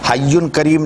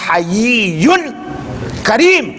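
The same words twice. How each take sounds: First: The first word is said short, as hayyun. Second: The first word is said longer, as hayiyyun. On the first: It would mean living, which is the wrong word here. The speaker calls it wrong. "हय्युन करीम नहीं है" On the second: It means one who feels shame and modesty. The speaker calls it right. "ये लफ्ज है हय्युन करीम"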